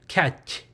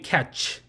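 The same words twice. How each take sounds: First: The word ends with a closed, cut-short ch sound. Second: The word ends with a fully released ch sound. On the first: The speaker calls it right. "it'll be catch" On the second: The speaker calls it wrong. "it won't be catch"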